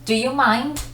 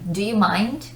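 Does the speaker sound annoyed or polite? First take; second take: annoyed; polite. First: It is said in an irritated, annoyed tone. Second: It is said in a polite, asking tone. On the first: The speaker is busy and does not want to be disturbed. "don't you see that I'm doing something, that I'm busy right now?" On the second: The speaker is asking for permission. "That's the polite way when you're asking for permission"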